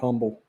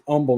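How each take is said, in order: First: The word starts with an audible H sound. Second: The word starts with no H sound. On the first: The speaker calls it wrong. "not Humble" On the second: The speaker calls it right. "It's Humble, H is silent"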